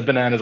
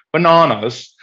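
First: Said in the usual way. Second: "Bananas" with a long ah in the middle; "Bananas" said as ba-NAH-nas; British pronunciation. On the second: Retold or imitated. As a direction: imitate a British "Bananas", pitched up. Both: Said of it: "he says bananas like".

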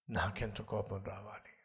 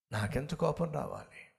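First: Repeated much softer and lower; quiet echo. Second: Said in the usual way. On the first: Retold or imitated. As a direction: drop to a grave hush. (మెల్లని గంభీర స్వరం) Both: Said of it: "ఇప్పుడు దేవుడు చెప్పాడు".

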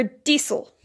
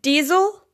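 First: Diesel with a hissing S in the middle; S sound in diesel. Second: Diesel with a buzzing Z in the middle; Z sound in diesel. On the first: Classmate asks about two pronunciations, diesel with an S. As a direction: say "diesel" with an unvoiced S, like "dee-sul". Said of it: "said with an S". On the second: Classmate asks about two pronunciations, diesel with a Z. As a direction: say "diesel" with a voiced Z. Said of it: "said with a Z". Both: Shown as a demonstration.

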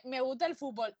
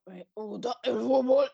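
First: Said in the usual way. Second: Slow, dreamy mock-swooning voice; drawn out like she's falling for football. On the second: Shown as a demonstration. Friend mocks how her voice changes talking football, slow mock-swoon. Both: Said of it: "y se te pone la voz".

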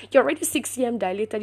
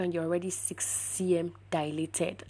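First: Quick, higher, insistent restatement; emphatic insistence. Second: Said in the usual way. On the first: Retold or imitated. Doctor repeating the dilation news to patient, emphatic insistence. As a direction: drive the fact home, fast and raised.

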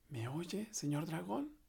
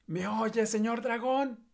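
First: Soft, hushed and high; very softly. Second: High, slow full-force yell; shouting with all her strength. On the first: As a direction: check gently if he sleeps. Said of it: "le dijo muy suavemente". (muy suavemente) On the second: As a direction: yell right into his ear. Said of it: "gritó con todas sus fuerzas". (gritando con todas sus fuerzas) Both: Acted.

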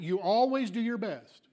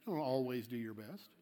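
First: Emphatic challenge on "always"; challenging, with "always" pushed up; pointed challenge. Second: Low, soft, knowing correction; hushed, matter-of-fact rebuttal; quiet correction. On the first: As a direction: throw the claim back, leaning on "always". Challenges the congregant's claim. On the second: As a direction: drop low and soft to set them straight. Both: Shown as a demonstration.

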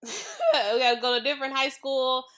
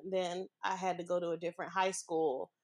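First: Starts with a laugh, louder and higher. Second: Said in the usual way. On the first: Real, not acted. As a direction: laugh at the slip and say it again. Restart with a laugh.

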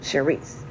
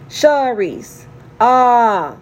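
First: "Sharice" said with an E, "Sher-eese"; "Sharice" low and soft, first vowel as in "share"; wrong pronunciation. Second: "Sharice" with an open "ah", "Shar-eese"; "Sharice" said right, first vowel as in "car"; correct pronunciation. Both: Shown as a demonstration. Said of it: "he spells my name with an E".

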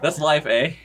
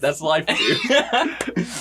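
First: Put-on joking Canadian accent, higher, with rising end; hammed-up Canadian "eh" lilt; mock Canadian. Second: Drawn-out line through laughter; louder, higher, laughing mock dad; joking dad reply. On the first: Dad shrugging off the murder, mock Canadian accent. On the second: Dad shrugging off the murder, laughing mock delivery.

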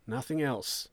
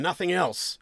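First: Softer, falling answer; subdued confirmation. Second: High, pressing NOTHING ELSE; sceptical question. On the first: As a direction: confirm it plainly to the interrogator. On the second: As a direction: demand confirmation from the suspect. Sergeant's question, echoed in reply. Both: Acted.

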